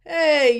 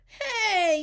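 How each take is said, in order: First: Very loud, raised call; forceful shout to stop someone; teacher's yell. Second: Put-on high, loud childlike call; high-pitched protesting shout; kids' yell. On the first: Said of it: "yelled the teacher". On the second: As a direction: yell it high like a group of kids. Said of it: "yelled the kids". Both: A narrator's reading.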